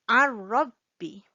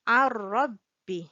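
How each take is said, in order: First: Ar-rabbi with a doubled rolled r; correct ar-rabbi. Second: Ar-rabbi slow, r doubled and held; slow model ar-rabbi. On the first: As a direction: merge the n into ar-rabbi. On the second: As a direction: model Ar-rabbi slowly for students. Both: Shown as a demonstration. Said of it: "we read it as ar-rabbi".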